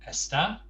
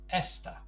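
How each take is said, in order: First: The stress is on the last syllable. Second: The stress is on the first syllable. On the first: It means he, she or it is. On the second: It means this, in the feminine.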